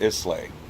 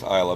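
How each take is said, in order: First: The name is pronounced just as it is spelled. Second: The name is pronounced differently from its spelling. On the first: The speaker calls it wrong. "if I were to pronounce it the way that it's spelled" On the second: The speaker calls it right. "But I know that it's Islay because I googled it"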